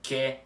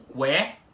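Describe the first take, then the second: First: The u after the q is silent. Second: The u after the q is pronounced. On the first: The speaker calls it wrong. "não ficam pronunciados como que" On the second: The speaker calls it right. "e sim como que"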